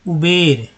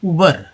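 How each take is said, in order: First: The second syllable has a clear 'e' vowel. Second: The second syllable has a short neutral vowel. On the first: "कई लोग बोलते हैं इसे उबेर, उबर नहीं" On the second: "एक तो बोलते हैं उबर"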